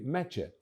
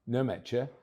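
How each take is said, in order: First: The name begins without any N sound. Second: The name begins with a sounded N. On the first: The speaker calls it right. "but simply Metje" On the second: The speaker calls it wrong. "So it's not Nemetje"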